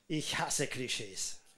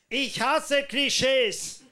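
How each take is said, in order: First: It is spoken at a normal volume. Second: It is spoken loudly.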